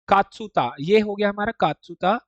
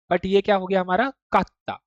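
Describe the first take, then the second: First: कात्सुता with a full tsu syllable; कात्सुता, every syllable said; plain tsu reading. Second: कात्ता with the tsu dropped and the t doubled; कात्ता, held tt, no tsu; कात्ता, double t; doubled consonant. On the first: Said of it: "normal पढ़ेंगे हम उसे कात्सुता". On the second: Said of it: "double टी वाली sound को double कर रहा है". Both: Shown as a demonstration.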